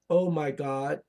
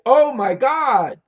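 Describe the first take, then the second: First: It is said flatly, without lively inflection. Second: It is said excitedly, with strong inflection. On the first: It is not an interjection. The speaker calls it wrong. "So you don't say" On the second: It is an exclamation. The speaker calls it right. "there has to be an inflection of your voice"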